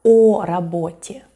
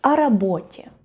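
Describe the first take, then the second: First: "о работе" with a full, stressed, louder O; "о работе" with the preposition pronounced as a strong O; wrong unreduced O. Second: "о работе" joined as one word, "о" sounding like an unstressed A; "о работе" with "о" as an extra unstressed A syllable; reduced O like A. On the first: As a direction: hit "о" as a separate round O before "работе". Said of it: "So we don't say". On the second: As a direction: say "о работе" as "arabotye", preposition melted in. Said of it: "it's pronounced, uh, more like". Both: Shown as a demonstration.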